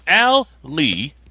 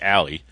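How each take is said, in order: First: The name is said slowly, two parts apart. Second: The name is said fast, run together.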